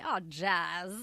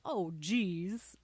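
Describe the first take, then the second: First: The word is said with an 'a' vowel, like 'jazz'. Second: The word is said with its normal 'ee' vowel. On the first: "Now I say" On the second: "Like the word geez"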